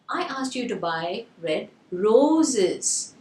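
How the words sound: The word "roses" is stressed. "the stress is on the roses"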